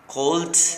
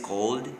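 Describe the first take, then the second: First: The ending is a t sound. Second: The ending is a soft d sound. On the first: The speaker calls it wrong. "It's not a T" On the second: The speaker calls it right. "It's like a soft D"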